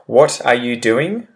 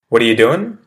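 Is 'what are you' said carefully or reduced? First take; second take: careful; reduced. First: Each word is said fully and separately. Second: The words run together in a shortened form. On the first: "using the well-enunciated example first" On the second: "how it changes in pronunciation afterwards"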